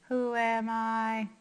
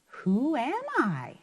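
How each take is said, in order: First: It is said flat, like a robot. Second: It is said with a questioning tune. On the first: The speaker calls it wrong. "That sounds like a robot" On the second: The speaker calls it right. "I'm going to make my voice ask a question"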